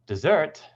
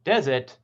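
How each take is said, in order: First: "dessert" stressed on the second syllable, de-ZERT; "dessert" as the sweet course, de-ZERT. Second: "Desert" stressed on the first syllable, DEZ-ert; "Desert" as the dry place, DEZ-ert. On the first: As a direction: keep de short, punch ZERT in "dessert". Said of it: "on the second syllable". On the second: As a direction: hit DEZ in "Desert", strong and high. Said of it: "on the first syllable". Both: Shown as a demonstration.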